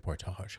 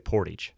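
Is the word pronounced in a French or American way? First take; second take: French; American. First: The word is said with a French pronunciation. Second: The word is said with an American pronunciation. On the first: This is how French speakers say the name. "Probably the French ones say Portage" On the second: This is how local Ohio people say the name. "Those from Upper Sandusky, Ohio, say Portage"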